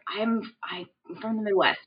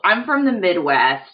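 First: The words are said in a whisper. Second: The words are said in a normal voice.

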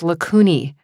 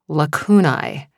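First: The ending sounds like a pasta name. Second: The ending does not sound like a pasta name. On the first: The speaker calls it right. "which actually sounds more like a pasta than a word" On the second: The speaker calls it wrong. "I have always pronounced"

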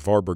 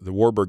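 First: The name is said in its native way. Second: The name is said in an anglicized way. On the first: The speaker calls it right. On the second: The speaker calls it wrong.

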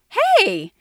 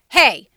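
First: It sounds warm and happy. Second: It sounds alarmed and tense. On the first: The speaker is glad to see someone again. "if I just saw you and I hadn't seen you in a long time" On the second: The speaker feels threatened or angry. "if I was worried or scared or you were coming too close to me or I was angry"

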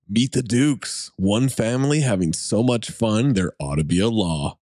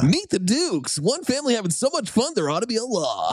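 First: It is read in a plain, ordinary voice. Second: It is read in a dramatic comedy trailer voice.

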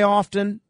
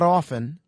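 First: The T sound in the middle is pronounced. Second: The T sound in the middle is silent. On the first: The speaker calls it right. "I will always say often" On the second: The speaker calls it wrong. "not often"

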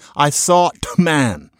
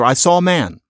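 First: The t is pronounced as a full t. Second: The t sound is left out completely. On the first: "I'm not saying I sought man" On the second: "it just disappears altogether"

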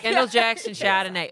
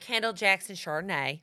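First: It is said in a Boston accent. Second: It is said in a Southern American accent. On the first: "I feel like Boston" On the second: "that was Southern accent"

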